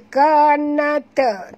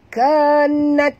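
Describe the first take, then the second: First: The word ends with an added vowel after t. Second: The word ends in a breathy t sound. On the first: The speaker calls it wrong. "Ada yang baca kanata" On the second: The speaker calls it right. "bunyikan sikit saja angin"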